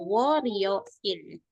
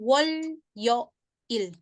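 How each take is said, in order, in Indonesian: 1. Itu disambung dengan lancar dengan bunyi R. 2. Itu diucapkan suku kata demi suku kata dengan bunyi L. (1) "dibacanya sama orang Korea itu" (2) "Senin itu kan wol yo il"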